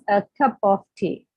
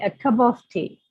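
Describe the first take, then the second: First: The small words keep full vowels, said separately. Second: The small words use schwa and run together. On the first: The speaker calls it wrong. "So they pronounce" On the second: The speaker calls it right. "Instead of saying"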